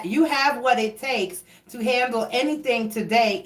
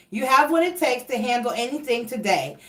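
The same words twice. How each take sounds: First: "you" given the weight, "what" left light; corrected stress. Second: "what" leaned on instead of "You", an unintended stress slip; stress on the wrong word. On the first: Rereading the card line to Leos, stress now on "you". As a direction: open by leaning on "you" in "you have what it takes". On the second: Reader reading the card to Leos, stress lands on "what". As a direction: stumble onto the word "what" in "You have what it takes". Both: Shown as a demonstration. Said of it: "I just put emphasis on the wrong word".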